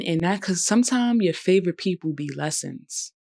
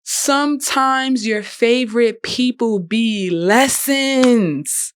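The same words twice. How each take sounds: First: Said in the usual way. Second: "Sometimes your favorite people be lessons" slowed right down, higher and louder, every word leaned on; slow emphatic repeat. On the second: Shown as a demonstration. Vlogger repeating her best line to viewers, slow, high and loud emphasis. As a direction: deliver it like a quotable mic-drop line, slow and weighty. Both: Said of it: "I'm spitting".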